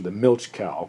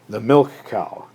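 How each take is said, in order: First: The first word ends with a ch sound. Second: The first word ends with a k sound.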